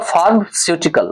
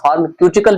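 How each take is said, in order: First: The consonant after 'pharma' is an s sound. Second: The consonant after 'pharma' is a k sound. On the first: "लेकिन फार्मास्यूटिकल होते हैं" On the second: "कहीं कहीं इसका pronunciation फार्माक्यूटिकल भी कहा जाता है"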